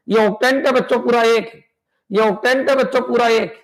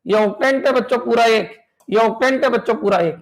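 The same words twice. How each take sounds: The two takes are said the same way.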